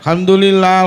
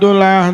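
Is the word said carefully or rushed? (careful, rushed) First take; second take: careful; rushed. First: It is said unhurried, with every syllable clear. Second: It is said fast, clipped to its last syllables. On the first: The speaker calls it right. "awale genah" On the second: The speaker calls it wrong. "kok ganti dolah"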